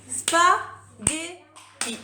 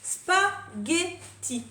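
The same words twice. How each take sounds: First: "Spaghetti" very slow and louder, three hammered syllables; syllables tapped loud. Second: "Spaghetti" very slow, three even syllables; syllables spelled out. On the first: Teacher tapping the syllables aloud, slow and loud. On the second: Teacher counting syllables, very slow beats. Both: Shown as a demonstration. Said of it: "Trois syllabes".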